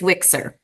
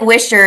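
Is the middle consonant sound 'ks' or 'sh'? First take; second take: ks; sh. First: The middle consonant is a 'ks' sound. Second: The middle consonant is an 'sh' sound. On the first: The speaker calls it right. "it's Wixer" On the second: The speaker calls it wrong. "it looks like Wisher"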